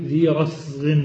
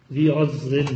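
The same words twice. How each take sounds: First: Said in the usual way. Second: رسغ said slowly with a clear ز instead of س; slow رسغ, voicing the ز; with zay. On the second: Shown as a demonstration. (رسغ تنطق بالزاي ببطء) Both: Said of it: "بالزاي".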